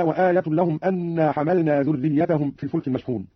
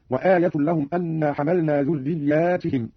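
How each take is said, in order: First: Said in the usual way. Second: ذرياتهم slow, as "dhurriyyaatihim", long aa and ti; plural ذرياتهم. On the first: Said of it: "بألف بعد الياء وكسر التاء". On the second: Shown as a demonstration. Teacher shows Qalun's reading, ذرياتهم with long aa and "-tihim". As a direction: stretch aa after the yaa in ذرياتهم, then say "tihim". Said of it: "بألف بعد الياء وكسر التاء هكذا".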